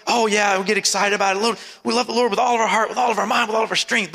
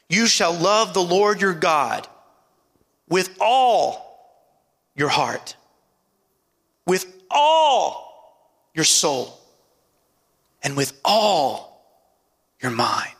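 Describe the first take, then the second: First: Quick run-through with no weight on "all"; mimicking a fast, offhand recital; said in passing. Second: ALL drawn out slowly, set apart by pauses; slow, weighty reading leaning hard on "all"; stress on ALL. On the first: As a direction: rattle it off without pausing. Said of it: "we say it in passing". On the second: Shown as a demonstration. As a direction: stretch each "all", then pause before what follows. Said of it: "put emphasis on that word all".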